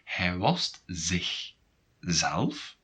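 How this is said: It is said with a pause before zelf.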